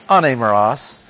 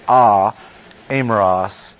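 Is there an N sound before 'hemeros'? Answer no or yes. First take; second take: Yes; No. First: An N sound links the two vowels. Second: The vowels meet with no N between them. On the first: The speaker calls it right. "So they slip in an N sound" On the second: The speaker calls it wrong. "It's hard to say"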